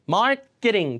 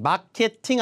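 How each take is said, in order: First: Said English-style, the middle sounds softened and reduced. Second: Said Korean-style, every syllable full and crisp. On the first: Native speakers understand it. The speaker calls it right. "중간에 발음 뭐가 돼요? K가 끄죠?" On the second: Native speakers struggle to understand it. The speaker calls it wrong. "마케팅 아니고"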